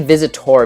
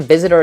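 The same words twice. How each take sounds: First: The last syllable has a full 'or' vowel. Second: The last syllable sounds like a reduced 'er'. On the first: The speaker calls it right. "I always say Visitor" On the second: The speaker calls it wrong. "it sounds like it's with an E"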